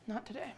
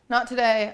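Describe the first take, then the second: First: Quiet. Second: Loud. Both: Real, not acted. Cat refuses, quiet then loud.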